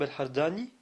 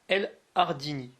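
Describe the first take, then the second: First: The name is pronounced the Arabic way. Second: The name is pronounced the French way. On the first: "tel qu'il se prononce en arabe" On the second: "puisqu'il se prononce ainsi en français"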